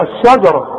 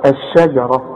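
First: الشجرة with a dark, back SHA; wrong heavy shin. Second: الشجرة lower, thin SHA-JA and heavy RA; light shin. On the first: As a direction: thicken the first vowel after ش in الشجرة. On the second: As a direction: keep ش light in الشجرة, thicken only the ر. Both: Shown as a demonstration. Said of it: "ما تقولش بقى ايه؟".

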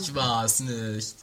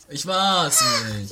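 First: Said in the usual way. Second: High, loud, slow denial; louder denial. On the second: Acted. Sergeant protests his innocence again, louder.

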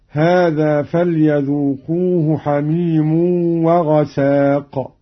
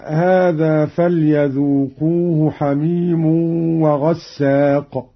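First: وغساق with a single s, "ghasaq"; slow recitation, وغساق as "wa-ghasaq"; lightened seen. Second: وغساق with a held double s, "ghassaq"; slow recitation, وغساق as "wa-ghassaq"; doubled seen. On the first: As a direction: keep the s short in وغساق. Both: Shown as a demonstration. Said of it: "بتخفيف السين".

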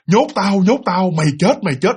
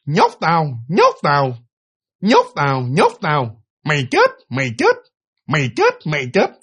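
First: Continuous chant imitating the bird; nonstop repetition. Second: Parrot-like cry in short, separated bursts; talking-bird squawk. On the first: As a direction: run the bird's phrases together without pauses. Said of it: "nói kiểu như nói liên tục như vậy". (nhại tiếng chim, nói liên tục) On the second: Retold or imitated. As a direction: imitate a bird repeating human words, phrase by phrase. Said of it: "con két này nọ đồ nó kêu chưa". (giọng két nhại tiếng người)

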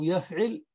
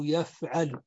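First: يفعل said yaf'il; يفعل as yaf-'IL, i in the last syllable; kasra on the ayn. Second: يفعل said yaf'al; يفعل as yaf-'AL, a in the last syllable; fatha on the ayn. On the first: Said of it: "مكسور العين". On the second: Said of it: "يفعل بفتح العين". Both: Shown as a demonstration.

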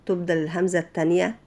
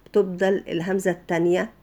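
The two takes are said the same way.

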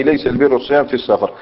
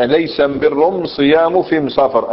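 First: Said in the usual way. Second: Slow Himyar "am" for every "al"; Himyar dialect. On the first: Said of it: "أي". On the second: Shown as a demonstration. Teacher demonstrating the article in a hadith, slow Himyar dialect. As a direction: draw out the Himyar am-birr, am-siyam, am-safar. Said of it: "هذه أم أداة التعريف عندهم".

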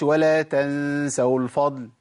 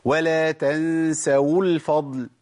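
First: ولا تنسوا الفضل with the waw of تنسوا clearly sounded; tajweed model, full waw in تنسوا; correct waw. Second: ولا تنسوا الفضل with the waw of تنسوا dropped; wrong waw. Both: Shown as a demonstration. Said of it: "ما أقولش".

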